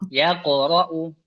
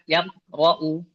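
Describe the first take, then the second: First: The q sound is released with an echo. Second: The q sound is cut off without echo. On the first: The speaker calls it right. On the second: The speaker calls it wrong.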